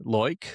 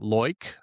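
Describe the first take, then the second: First: The vowel sounds like 'oy', an Australian accent. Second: The same.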